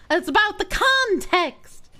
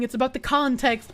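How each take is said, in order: First: CONTEXT pitched high and drawn out; slow, raised pitch peaking on CONTEXT; emphatic repeat. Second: Said in the usual way. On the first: Real, not acted. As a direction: hammer home the word context, higher and slower.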